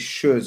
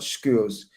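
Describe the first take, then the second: First: The name does not sound like 'skewers'. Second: The name sounds like the word 'skewers'. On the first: The speaker calls it right. "It's Schurs" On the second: The speaker calls it wrong. "not skewers"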